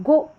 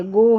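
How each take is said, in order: First: गो clipped with a short o, shown as wrong. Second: गो with a long stretched o; long o demo. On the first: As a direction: say गो with a short o as the mistake. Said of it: "अब गो नहीं है". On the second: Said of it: "गो है". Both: Shown as a demonstration.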